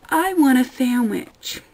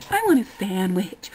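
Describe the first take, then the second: First: Slow, louder, higher mock customer; mock dim customer. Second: Said in the usual way. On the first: Server mocking a customer's obvious order, slow and dopey. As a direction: drag it out like a clueless orderer.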